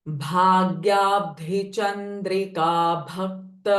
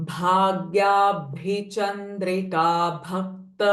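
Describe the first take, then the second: The two takes are said the same way.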